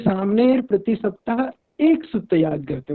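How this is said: The stress falls on the word 'ek'. No more than one formula is learned. "एक ही सूत्र पर अगर जोर दे रहे हैं"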